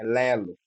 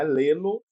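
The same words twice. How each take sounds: First: "lelo" with a low falling end; entonação descendente em "lelo"; right falling tune. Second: "lelo" said rising, the wrong way; wrong flat tune. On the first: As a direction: drop "lelo" low at the close. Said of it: "é lelo". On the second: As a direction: say "lelo" with a rising end, as the mistake. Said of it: "Não é lelo". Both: Shown as a demonstration.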